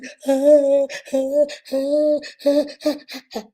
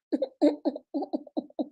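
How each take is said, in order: First: Long, high mock wailing; imitated ugly Nigerian cry. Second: Small, soft, high mock sobs; imitated pretty Oyibo cry. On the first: Showing listeners how our own people cry, loud mock wailing. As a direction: fake a big unrestrained bawl. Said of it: "Our own is". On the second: Showing listeners how Oyibo people cry, soft mock sobbing. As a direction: fake a restrained little cry. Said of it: "You know how Oyibo dey cry". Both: Shown as a demonstration.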